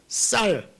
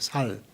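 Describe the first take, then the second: First: The first consonant is a tense s sound. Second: The first consonant is a plain s sound.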